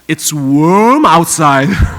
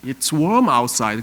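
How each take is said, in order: First: The r in warm is strongly rolled and curled. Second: The r in warm is light and weak.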